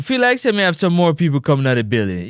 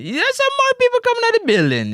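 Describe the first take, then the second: First: Said in the usual way. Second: Very high, fast mock amazement; high-pitched exclamation. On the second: Host spots more people arriving, high excited squeal. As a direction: squeal it out in a rush. Hyped repeat about crowd arriving.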